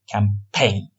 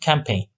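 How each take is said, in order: First: The stress is on the second syllable. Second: Both syllables are said evenly, without stress. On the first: "اونا در واقع استرس دارن روی لغاتشون که اینجا در قسمت دوم هست استرس" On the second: "در حرف زدنمون در واقع روی لغات استرس نمیذاریم"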